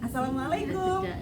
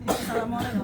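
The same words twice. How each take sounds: First: The greeting is said with lively, varied pitch. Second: The greeting is said in a flat monotone. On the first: Listeners become interested in listening. The speaker calls it right. "itu membuat orang jadi tertarik untuk mendengarkan" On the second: The speaker seems dull and uninvolved. The speaker calls it wrong. "Datar ya bu ya, kagak berasa ya bu ya"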